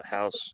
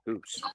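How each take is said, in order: First: Said in the usual way. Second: "house" as HOOSE, mock Canadian; Canadian accent. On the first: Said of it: "that's not as bad as". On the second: Comparing Canadian speech, mock Canadian accent. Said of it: "The Canadian accent".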